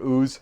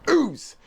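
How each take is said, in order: First: It is said plainly, without extra energy. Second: It is said loudly, with lots of energy.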